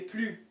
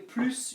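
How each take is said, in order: First: The final S is silent. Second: The final S is pronounced. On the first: It means more, before an adjective. "Tu es plus, because this is an adjective" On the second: It means more, before a quantity. "you do pronounce it because it's followed by de"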